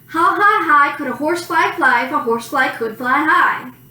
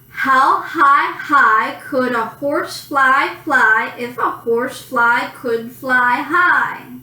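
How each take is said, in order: First: It is said at a quick pace. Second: It is said at a slow, careful pace.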